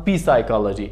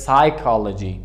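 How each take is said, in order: First: "P psychology" with an added "pee" at the front; P wrongly pronounced. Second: "psychology" starting straight on the S; silent P. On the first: Teacher showing the mistake to avoid, "P psychology" with P sounded. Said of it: "It is not P psychology". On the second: Teacher giving the correct form, "psychology" with silent P. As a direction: say "psychology" as "sai-kology", slowly, without P. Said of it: "it is psychology". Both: Shown as a demonstration.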